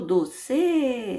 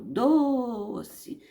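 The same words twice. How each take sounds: First: The stress is on the last syllable. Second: The stress is on the first syllable. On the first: The speaker calls it wrong. "Não é o C. Eu não falo doce" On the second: The speaker calls it right. "Eu falo doce. Então a sílaba forte aqui é o do"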